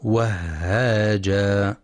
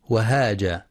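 First: Slow وهاجا with a long, breathy doubled h; وهاجا with strong airy shadda on ha. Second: Quick وهاجا with a single short h; وهاجا with the ha left light; undoubled ha error. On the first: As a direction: hold the h in وهاجا: "wah-haaja". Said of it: "والصواب تشديدها". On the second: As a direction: say وهاجا as "wahaja", no doubling. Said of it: "بدون تشديد الهاء". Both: Shown as a demonstration.

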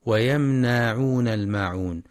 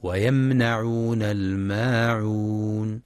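First: ويمنعون with the ن stretched long; wrong lengthening. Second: ويمنعون with a short ن, no lengthening; correct reading. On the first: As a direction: drag out the ن of ويمنعون as a mistake. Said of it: "بمد النون هكذا". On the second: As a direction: say ويمنعون slowly with the ن short and open. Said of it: "والصواب فتح النون فقط دون مد". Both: Shown as a demonstration.

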